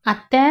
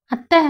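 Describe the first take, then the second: First: Said in the usual way. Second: Put-on higher, rising child's call; little girl calling higher. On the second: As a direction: call auntie again, more insistent. Child tugs at aunt calling. (அத்தையை மீண்டும் உயர்ந்த குரலில் அழைக்கும் சிறுமி)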